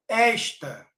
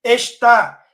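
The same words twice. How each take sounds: First: Esta stressed on the first syllable, ES-ta; stress shift demo. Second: Está loud, stressed on the final "tá", es-TÁ; stress shift demo. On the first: Teacher showing students the pronoun, esta stressed on "es". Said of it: "Ela vira paroxítona". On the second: Teacher contrasting the verb for students, Está stressed on "tá". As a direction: punch the "tá" of Está. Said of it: "se tirar o acento, fica". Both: Shown as a demonstration.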